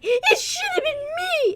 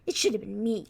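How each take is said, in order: First: It is said in an exaggerated, very whiny way. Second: It is said only slightly whiny, more restrained.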